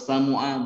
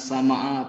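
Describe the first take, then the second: First: The vowel after the m is u. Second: The vowel after the m is a. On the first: "atau samu'a bukan" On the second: "bukan sama'a"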